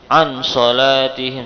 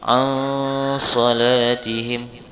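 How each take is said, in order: First: The n sound is pronounced clearly. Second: The n sound is muffled and nasal. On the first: The speaker calls it wrong. "jangan dibaca an salatihim, salah" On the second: The speaker calls it right. "disamarkan, menyamarkan suara nun"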